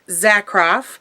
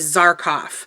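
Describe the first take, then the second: First: The r sound comes after the k. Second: The r sound comes before the k. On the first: The speaker calls it right. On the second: The speaker calls it wrong.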